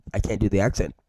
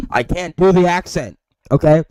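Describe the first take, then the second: First: Said in the usual way. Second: Loud, high-pitched frustrated admission; exasperated outburst. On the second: Real, not acted. Frustrated at failing the accent.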